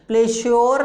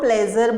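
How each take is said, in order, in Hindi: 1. बीच का व्यंजन अघोष sh ध्वनि है। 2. बीच का व्यंजन घोष zh ध्वनि है। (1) "प्लेश्योर नहीं बोलते" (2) "इसको हम प्लेजर बोलते हैं"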